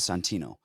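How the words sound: It is said in a New York Italian accent.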